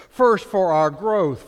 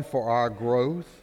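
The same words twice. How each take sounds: First: "First, for our growth" louder and slower, leaning on "First"; louder slow emphasis on "growth"; emphatic restatement. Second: Said in the usual way. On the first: Shown as a demonstration. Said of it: "point restated emphatically". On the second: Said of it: "repeated point".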